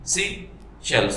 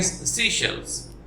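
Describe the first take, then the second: First: "सी shells" slowly in two separate beats; split into syllables. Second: Said in the usual way. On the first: Shown as a demonstration. Teacher demonstrating two syllables, slow and broken in two. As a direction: pause between सी and shells. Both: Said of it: "दो झटकों में".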